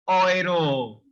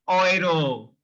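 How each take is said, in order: Both takes have the same delivery.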